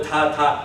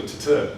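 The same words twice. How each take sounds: First: Ta ta with full, even vowels. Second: T-t with the vowels dropped, just bare t sounds; wrong clipped t. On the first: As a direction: say ta ta with every ta the same length. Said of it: "It's all". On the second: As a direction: say t-t as two clipped consonants. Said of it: "I don't make it into". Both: Shown as a demonstration.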